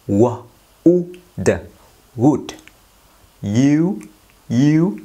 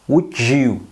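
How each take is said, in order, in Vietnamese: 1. Hai từ được nói tách rời. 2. Hai từ được nối với âm j.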